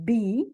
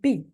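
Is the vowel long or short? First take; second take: long; short. First: The vowel is said long and full. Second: The vowel is said short and relaxed. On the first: "instead of saying be" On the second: "the long E becomes E in function words"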